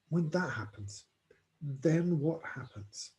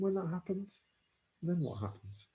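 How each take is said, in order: First: The question is asked firmly and with force. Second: The question is asked gently and softly.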